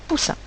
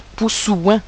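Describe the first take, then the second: First: Said in the usual way. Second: Poussouin ending in a wrong "ouin" glide; poussouin, the mistaken version with "ouin"; wrong pronunciation. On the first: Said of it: "je dirais poussin". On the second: Shown as a demonstration. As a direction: say poussouin with an added w sound before "in". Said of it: "je ne vais pas dire".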